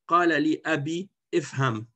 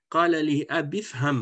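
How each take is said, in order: First: The last word starts with its own separate vowel. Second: The words run together with the last vowel dropped. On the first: The speaker calls it wrong. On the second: The speaker calls it right.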